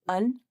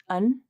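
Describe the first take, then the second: First: It is a weak vowel followed by n. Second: The same.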